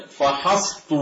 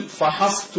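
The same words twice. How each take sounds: First: "فحصت" ending in a heavy ط, -Tu; substituted emphatic ط. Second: "فحصت" ending in a plain ت, -tu; original light ت. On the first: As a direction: turn the final ت of "فحصت" into a dark ط. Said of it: "بالطاء برجلي". (نطق "فحصت" بطاء مفخمة في آخرها) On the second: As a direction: keep the final ت of "فحصت" light after ص. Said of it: "بالأصل فحصت برجلي". (نطق "فحصت" بتاء مرققة في آخرها) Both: Shown as a demonstration.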